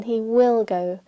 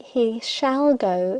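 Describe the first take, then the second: First: Said in the usual way. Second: "shall" stressed, slow, with a rising tune; emphatic shall. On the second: Shown as a demonstration. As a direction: press on "shall", slow and insistent. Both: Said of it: "is more emphatic than".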